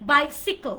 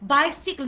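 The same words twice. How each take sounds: First: The second syllable sounds like 'sick'. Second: The second syllable sounds like 'sick'.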